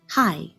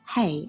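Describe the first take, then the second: First: The word rhymes with 'eye'. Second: The word rhymes with 'day'. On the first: The speaker calls it right. "this is pronounced hi" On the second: The speaker calls it wrong. "not hey as we would in English"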